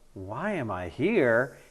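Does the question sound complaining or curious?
complaining. It sounds like a resentful, complaining question. The person resents being there. The speaker calls it wrong.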